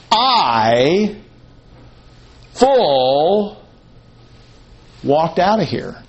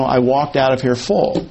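First: I and FULL each drawn out alone, with long pauses after them; emphatic quote. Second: Said in the usual way. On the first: Acted. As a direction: isolate "I" and "full" as weighty single words, then "walked out of here". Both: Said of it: "it's not a casual statement".

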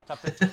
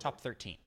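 First: Corrected louder, with a rising end; louder correction. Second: Said in the usual way. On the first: Real, not acted. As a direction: correct yourself with emphasis.

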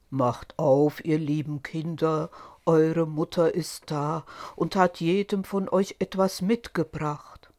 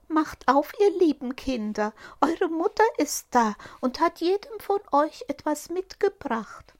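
First: Lower, rough wolf. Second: Much higher, sweet put-on mother voice; wolf faking a fine sweet voice; fine disguised voice. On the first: Acted. Wolf at the door fakes being mother, low and rough. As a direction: growl it low like a disguised wolf. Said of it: "hörten an der rauen Stimme". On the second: Wolf fakes the mother's fine voice, much higher. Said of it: "machte damit seine Stimme fein".

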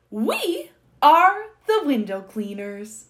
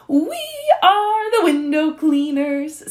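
First: Said in the usual way. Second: High, drawn-out sung line; singing. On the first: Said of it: "sang the monkey". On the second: A narrator's reading. Monkey introducing the window cleaners to the Duke, singing. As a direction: sing it out loud and slow. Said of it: "I gotta sing".

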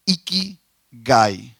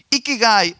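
First: Ikigai drawn out slowly, syllable by syllable, pitch rising at the end; careful slow teaching of ikigai. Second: Said in the usual way. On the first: Shown as a demonstration. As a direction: sound out ikigai slowly for the listeners. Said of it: "Esa palabra que ellos tienen".

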